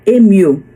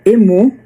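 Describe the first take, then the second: First: The word is said with English pronunciation. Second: The word is said with Portuguese pronunciation. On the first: "mas em inglês se pronuncia emu" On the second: "aqui no Brasil, né, se chamaria emu"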